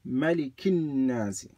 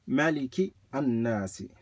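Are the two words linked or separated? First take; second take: linked; separated. First: The words run together with no vowel between them. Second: The words are apart, with an extra vowel between them. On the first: The speaker calls it right. "If you join them, you just say" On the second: The speaker calls it wrong. "But if you separate them, you do read the alif"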